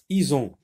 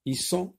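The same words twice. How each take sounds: First: Ison with a voiced z between the vowels; Z sound. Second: Isson high, with a hissed s inside; S sound. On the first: Teacher checking which to circle, Ison with a Z sound. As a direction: buzz the middle of Ison. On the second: Teacher rejecting one for circling, Isson with an S sound. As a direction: keep the middle of Isson unvoiced, a clean s. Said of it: "Je n'entoure pas". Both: Shown as a demonstration.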